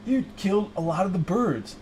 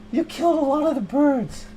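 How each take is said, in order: First: Said in the usual way. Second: Indignant. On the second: Acted. Improv, repeated louder, higher.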